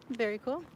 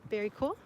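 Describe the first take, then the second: No difference in how they are said.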